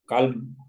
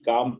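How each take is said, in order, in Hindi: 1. L की ध्वनि M से पहले बोली जाती है। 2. L की ध्वनि M से पहले साइलेंट रहती है। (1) "अगर एल की तलफ़ुज़ को जाहिर करें" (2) "काम पढ़ा जाएगा"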